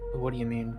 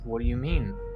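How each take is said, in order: First: It sounds casual and light. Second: It sounds questioning, rising at the end.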